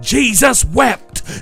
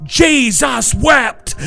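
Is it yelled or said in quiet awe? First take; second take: yelled; yelled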